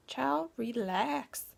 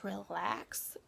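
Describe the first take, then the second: First: Drawn-out urging. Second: Said in the usual way. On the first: Real, not acted. Coaxing viewers before meditation, drawn-out "child, relax".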